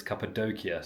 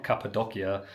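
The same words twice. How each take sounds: First: Cappadocia with a long "doh" in the middle; corrected Cappadocia. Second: Cappadocia with a short "dock" in the middle; mispronounced Cappadocia. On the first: Vlogger corrects it for viewers, Cappadocia said as "cappa-DOH-kia". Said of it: "so we will correct that". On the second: Vlogger admits to viewers they said it wrong, mispronounced Cappadocia as "cappa-DOCK-ia". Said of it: "we've been saying it wrong". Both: Shown as a demonstration.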